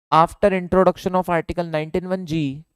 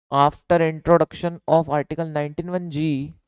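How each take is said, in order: The two takes are said the same way.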